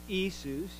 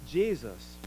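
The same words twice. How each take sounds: First: The name is said with a Greek pronunciation. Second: The name is said with an English pronunciation. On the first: "You say that in Greek" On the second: "You say that in English"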